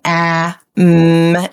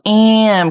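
First: "Ah", a break, then a separate "mm"; unblended sounds. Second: "am" blended, vowel raised and nasal like "eh-um"; crying vowel. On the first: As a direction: sound out "Ah, mm" with an open, un-nasal vowel. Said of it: "it doesn't quite sound right". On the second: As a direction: let the vowel cry into the m of "am". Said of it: "'cause it makes it cry". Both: Shown as a demonstration.

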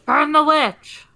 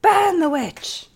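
First: Shouted high and loud; rally the mob to burn her; angry mob leader. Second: Even higher, slow, hammed-up shout; angry mob leader. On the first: Pretend. Mock mob cry. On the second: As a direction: bellow it like a frenzied villager. Echoing mob cry.

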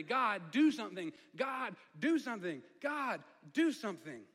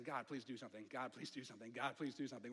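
First: Loud, higher, desperate plea, slowing at the end; crying out. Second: Hushed, low pleading under the breath; desperate inner prayer. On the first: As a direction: cry out to God with everything. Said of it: "he's crying out internally". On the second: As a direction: beg God quietly, almost to yourself. Moses praying inwardly, terrified. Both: Retold or imitated.

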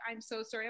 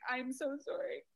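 First: Much softer, hushed apology; retold tearful apology. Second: Soft, higher apology with rising end; retold bawling apology. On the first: Secretary apologizing to a crying mom, hushed. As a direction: voice a sorry secretary very softly. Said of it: "she's now crying for me". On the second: Bawling mom apologizing back to the secretary, soft and higher. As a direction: answer softly, a touch tearful. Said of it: "I'm bawling".

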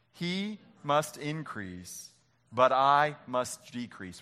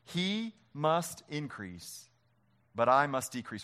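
First: Slow group recitation, each word drawn out; slow reading together. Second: Slow, weighty reading of the verse; slow scripture reading. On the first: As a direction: lead the room through it slowly. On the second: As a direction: lay each word down slowly. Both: Shown as a demonstration. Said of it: "Will you read it with me?".

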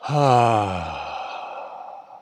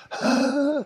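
First: Long deep falling sigh of release. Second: Short sharp huff instead of a sigh; tense huff. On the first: Teacher leading the class in a big sigh. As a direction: let it all drop out on the breath. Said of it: "Breathe in". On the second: Teacher showing a stressed client's huff. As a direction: push out a tight, clipped huff. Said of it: "they go, it's a huff". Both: Shown as a demonstration.

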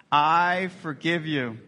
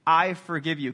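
First: Each word slow and deliberate, "I forgive you" drawn out. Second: Said in the usual way. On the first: Shown as a demonstration. Pastor modeling the phrase for the church, slow and deliberate. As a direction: model the words slowly for the congregation to repeat. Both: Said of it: "Can you say that?".

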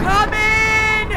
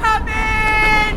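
First: High, loud summoning call. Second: High, loud, tearful call; crying call. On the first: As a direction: summon the spirit inside. Summoning the ghost. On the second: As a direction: summon him through tears. Second summons, crying heard. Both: Acted.

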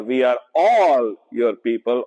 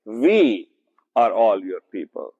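First: "all" lifted and stretched, others even; stress on ALL. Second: "are" pushed out with weight, the rest even; stress on ARE. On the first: Teacher to Bible group, showing the verse with stress on "all". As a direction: land the weight on "all". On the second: Teacher to Bible group, showing the verse with stress on "are". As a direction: lean hard on the word "are". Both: Shown as a demonstration. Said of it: "you can emphasize it in different ways".

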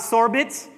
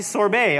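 First: "sorbet" said as "SOR-bit"; wrong sorbet. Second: "sorbet" said as "sor-BAY"; correct sorbet. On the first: Pastor showing the wrong way, sounded-t sorbet. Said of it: "Not sorbet". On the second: Pastor teaching the right way, silent-t sorbet. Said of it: "It's actually sorbet". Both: Shown as a demonstration.

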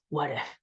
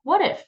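First: A low, soft, half-swallowed what if; low worried murmur. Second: What if thrown out much higher and louder; challenging what if. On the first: Retold or imitated. Coach voicing the anxious brain, low and soft. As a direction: let the doubt creep in quietly. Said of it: "our brain goes". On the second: Shown as a demonstration. Coach demonstrating how to face fear, high challenge. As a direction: toss the question back, bright and daring. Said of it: "answer the question".

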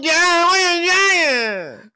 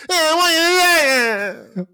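First: Put-on high, loud and slow child voice; a slowed, whiny little-kid imitation; drawn-out toddler voice. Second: Put-on high, loud little-kid voice; a child mumbling through tears; mimicking a small child. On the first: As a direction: stretch it out like a sobbing toddler. Crying kid mimicked again. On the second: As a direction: squeak it like a toddler.

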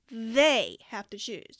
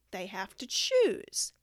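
First: Slow and louder, "they" hit hard; slow, loud stress on "they"; emphasis. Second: Slow, stress on choose; "they have to choose" said slow with "choose" leaned on; slow emphatic "choose"; emphasis. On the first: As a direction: punch "they" in "they have to choose", slowly. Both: Shown as a demonstration.

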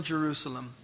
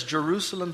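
First: Softer, grieving Jerusalem, falling away; a hint of Jesus weeping over the city; weeping lament. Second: Said in the usual way. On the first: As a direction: let Jerusalem sink into a soft, grieving sigh. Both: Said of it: "he's weeping".

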